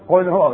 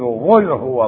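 First: The first word begins with a deep q sound. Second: The first word begins with a gargled gh sound. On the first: The speaker calls it right. "بدل ما يقول" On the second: The speaker calls it wrong. "منهم من يبدل القاف غينا"

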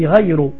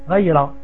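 First: The word ends with a u vowel. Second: The word ends with an a vowel. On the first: "tu dis Ghayru" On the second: "c'est pas très grave"

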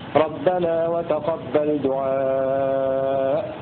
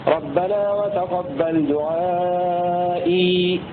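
First: The last word ends without a final ee vowel. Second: The last word ends with a final ee vowel. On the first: The final ya is dropped when stopping. "إذا وقفوا عليها يقفون بالحذف" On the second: The final ya is kept when stopping. "فهكذا يثبتها البزي وقتا"

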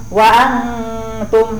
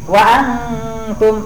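Both takes have the same delivery.

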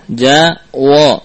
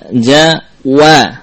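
First: The wa sound is thickened, sounding like wo. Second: The wa sound is kept thin and light. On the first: The speaker calls it wrong. "kadang-kadang tanpa sadar kita menebalkan huruf yang tipis" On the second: The speaker calls it right. "Tipiskanlah huruf wa"

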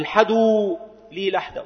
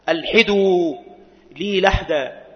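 First: No initial glottal stop; the ḥ takes vowel a. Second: Initial glottal stop; the ḥ takes vowel i. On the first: "بوصل الهمزة من غير قطع، ... وفتح الحاء" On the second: "ويجوز قطع الهمزة وكسر الحاء"

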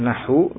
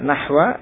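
First: The word ends with a 'u' vowel. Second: The word ends with an 'a' vowel. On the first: It is the predicate of an omitted subject. "Kalau dibaca dhammah nahu" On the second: It is the object of an omitted verb meaning 'I mean'. "Bisa dibaca nahwa"

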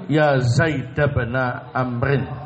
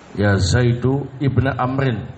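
First: The name ends with an 'a' vowel. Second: The name ends with a 'u' vowel. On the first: "yang kedua dibaca fathah... Dia mengikuti ibnanya" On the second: "Yang pertama dibaca mabni dhamma"

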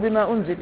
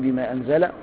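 First: The verb starts with a 'u' vowel. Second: The verb starts with an 'a' vowel. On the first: It refers to what was sent down. "أي بما أنزل من الذكر الحكيم" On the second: God is the one who sent it down. "أي بما أنزل الله عز وجل"

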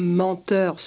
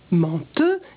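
First: The word ends with a pronounced R. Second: The word ends in a vowel, no R. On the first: This is the current pronunciation. "un adjectif comme" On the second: This is the older pronunciation, no longer used. "se prononçait donc"

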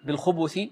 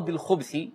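First: The b carries a short u vowel. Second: The b carries no vowel at all. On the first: It is a plural word. "بالضم للباء ... فيكون جمعا" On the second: It is a singular word. "بالسكون ... فيكون مفردا"

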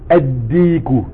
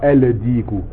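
First: The article's L merges into a doubled D. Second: The article's L is clearly pronounced before D. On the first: The speaker calls it right. "On dit eddiku" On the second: The speaker calls it wrong. "et non pas eldiku"

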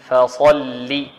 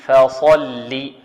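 Both takes have the same delivery.

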